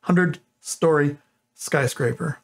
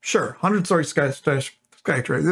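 First: "hundred-story skyscraper" spelled out slowly, each syllable placed; slow down to land "skyscraper" clean; careful slow "hundred-story skyscraper". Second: Trips over "sky-" twice before getting "skyscraper" out; fumbling "sky-, sky-, skyscraper"; tongue-tied stumble. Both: Real, not acted. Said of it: "That is not easy to say".

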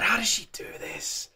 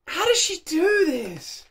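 First: Breathless whisper of disbelief; awed whisper. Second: Higher, slower, voiced wonder; amazed disbelief. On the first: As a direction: whisper it, stunned by the voice. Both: Real, not acted. Overwhelmed by the singing.

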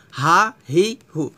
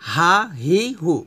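The two takes are said the same way.

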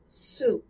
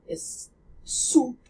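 First: "soup" with an American oo, lips less rounded. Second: "soup" with a French oo, lips rounded, tongue pulled back. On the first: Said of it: "the American oo". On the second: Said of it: "the French oo sound". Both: Shown as a demonstration.

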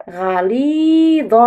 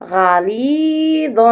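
First: غليظ drawn out very slowly with a clear ظ; slow modelled word. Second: غليظ said again, very slow and drawn out; slow repeat. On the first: Teacher models the word slowly for the class to repeat. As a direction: stretch غليظ out for little ears. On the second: Teacher repeats the word slowly after asking pupils to repeat. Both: Shown as a demonstration. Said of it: "رددوا".

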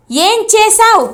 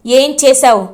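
First: Repeated higher, insistent demand; angry repeat. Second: Firm, contained demand, not yet raised; first ask, angry. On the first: Chamanthi repeats to her sister, higher angry demand. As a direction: push the question up, losing patience. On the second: Elder sister first demands answer, contained anger. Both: A narrator's reading. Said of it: "అని అడుగుతుంది చామంతి కోపంగా".

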